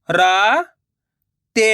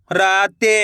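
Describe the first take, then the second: First: राते drawn out slowly, syllable by syllable; slow syllable split. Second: Said in the usual way. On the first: Shown as a demonstration. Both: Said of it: "मैं किस तरीके से".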